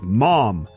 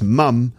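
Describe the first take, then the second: First: The word is said with an American vowel. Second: The word is said with a British vowel. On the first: "it's like mom, you know, like the American mom" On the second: "But in British English, it's mum"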